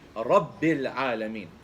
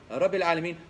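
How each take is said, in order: First: The b sound is held and doubled. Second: The b sound is short, not doubled. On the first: Every letter of the recitation is kept. The speaker calls it right. "that's exactly what you do when you don't say Rabbil Alameen" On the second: A letter is dropped from the recitation. The speaker calls it wrong. "you've taken a ba out of the Fatiha"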